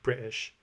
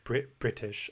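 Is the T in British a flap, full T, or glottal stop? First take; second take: glottal stop; full T. First: The T is replaced by a glottal stop. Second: The T is fully released and crisp. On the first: "a lot of them do the glottal stop" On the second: "I don't say Brit British"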